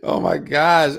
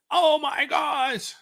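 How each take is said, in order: First: Loud exclamation just after a laugh; real, tickled oh-my-gosh; amused disbelief. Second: Very high, drawn-out imitation of someone aghast; hammed-up, slow exclamation; emphatic mock outcry. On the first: Real, not acted. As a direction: react as if you just cracked up. Cracks up, then reacts. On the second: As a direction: stretch it out in a high-pitched mocking wail. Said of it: "I just heard a guy emphatically come on and say".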